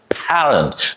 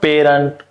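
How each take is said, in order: First: The first vowel is stretched and open. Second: The first vowel is short, not stretched. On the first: The speaker calls it right. "you gotta stretch the A sound. It's very much stretch" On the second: The speaker calls it wrong. "so it's not parent"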